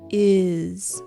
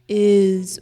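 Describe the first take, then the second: First: The word ends in a buzzing z sound. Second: The same.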